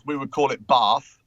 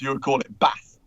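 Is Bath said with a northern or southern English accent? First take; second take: southern; northern. First: It is said in a southern English accent. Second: It is said in a northern English accent.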